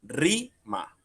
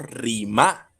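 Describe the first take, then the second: First: "rima" as RÍ-ma, RI high and long, ma dropping after a gap; stress on RI. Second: "rima" said as ri-MÁ, last syllable raised and punched; wrong stress on MA. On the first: Teacher corrects to how we say it, "rima" stressed on RI. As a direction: lift the RI of "rima", let ma fall away. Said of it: "sino decimos rima". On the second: Teacher shows how we do not say it, "rima" stressed on MA. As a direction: throw the stress onto the final ma of "rima". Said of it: "Nosotros no decimos rima". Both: Shown as a demonstration.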